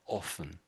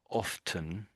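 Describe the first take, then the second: First: The T sound is left out. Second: The T sound is clearly pronounced. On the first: "The other sort of seventy or eighty percent of people say often" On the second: "I think you said often"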